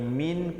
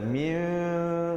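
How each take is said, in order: First: The word ends with an n sound. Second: The word ends with a held, nasal m sound. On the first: "daripada bunyi min" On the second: "kepada mim dua harakat, bibir bersentuhan"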